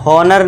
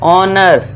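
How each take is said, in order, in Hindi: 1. शब्द एक सुनाई देने वाली h की आवाज़ से शुरू होता है। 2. शब्द स्वर से शुरू होता है, इसमें h नहीं है। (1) "हॉनर नहीं" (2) "एच को साइलेंट कर देंगे"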